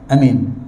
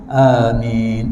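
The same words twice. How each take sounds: First: The first vowel is held for one count. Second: The first vowel is held for two counts. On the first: "terus satu harakat je" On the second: "dua harakat. Itu versi yang sebenar"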